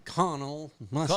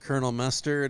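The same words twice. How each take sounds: First: Colonel is said with three syllables, col-o-nel. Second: Colonel is said with two syllables, like kernel. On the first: "go back to saying it original" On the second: "instead of"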